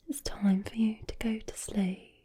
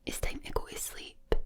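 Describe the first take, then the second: First: Whispered Brummie bedtime line. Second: Whispered Glaswegian bedtime line, sounds dropped; proper Glaswegian. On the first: Creator sending the listener to sleep, whispered Brummie accent. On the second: Glaswegian sending the listener to sleep, whispered Glaswegian accent. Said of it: "proper Glaswegian". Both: Shown as a demonstration.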